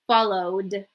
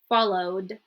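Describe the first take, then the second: No difference in how they are said.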